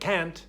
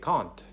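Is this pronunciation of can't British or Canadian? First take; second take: Canadian; British. First: It is said in a Canadian accent. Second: It is said in a British accent. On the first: The speaker learned English in Canada. "I say things like can't" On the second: A British person might say it this way. "where a British person might say can't"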